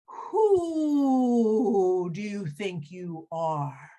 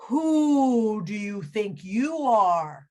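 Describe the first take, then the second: First: Very slow hooting owl. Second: Slow, hooting owl. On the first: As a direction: stretch every word like a hoot. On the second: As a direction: draw out the who like an owl. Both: Acted. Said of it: "you know how owls talk".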